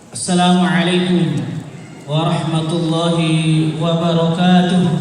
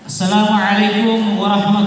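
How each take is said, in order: First: It is said with lower energy. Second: It is said with more energy.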